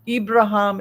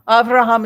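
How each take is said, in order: First: The name is said in its Arabic form. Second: The name is said in its Hebrew form. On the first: "is the Islamic" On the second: "is the Hebrew"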